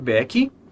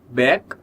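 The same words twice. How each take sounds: First: An extra 'ee' vowel follows the final consonant. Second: The word ends cleanly on the consonant. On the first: The speaker calls it wrong. "Em back não tem som de i depois, não pode ser back" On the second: The speaker calls it right. "Em back não tem som de i depois"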